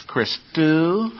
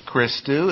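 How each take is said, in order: First: Christu slow, stress on the final syllable, chris-TU; accent on the end. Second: Christu stressed on the first syllable, CHRIS-tu; wrong take of Christu, weight on CHRIS. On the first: Teacher showing students the right Christu, end stressed. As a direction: lean on TU in Christu. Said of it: "because the accent is on the end". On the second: Teacher showing the wrong Christu, first syllable stressed. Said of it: "Christu is not Christu". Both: Shown as a demonstration.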